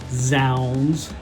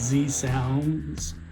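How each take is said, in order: First: The Z blends into one syllable. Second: The Z is said as a separate letter. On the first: "I didn't uh, say zounds" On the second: "I called it Z sounds"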